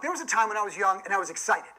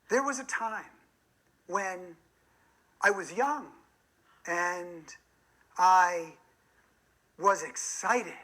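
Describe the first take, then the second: First: It is said in a plain conversational voice. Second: It is said in an artificial storytelling voice. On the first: The speaker sounds like themselves. The speaker calls it right. "That's a natural way of speaking" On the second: The speaker sounds fake and inauthentic. The speaker calls it wrong. "the storyteller voice ... sounds a little bit artificial, phony"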